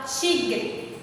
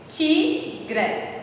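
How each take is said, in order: First: Said in the usual way. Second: "tigre" split slowly into ti, gre; syllable by syllable. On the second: Shown as a demonstration. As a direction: pause between the two syllables of "tigre". ("tigre" separado em sílabas, ti... gre) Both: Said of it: "separar as sílabas".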